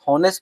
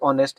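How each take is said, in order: First: The word begins with an audible h sound. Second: The word begins directly with a vowel sound. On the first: The speaker calls it wrong. "अब हॉनेस्ट पढ़ते हैं" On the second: The speaker calls it right. "Correct pronunciation होती है ऑनेस्ट, यानी एच silent होता है"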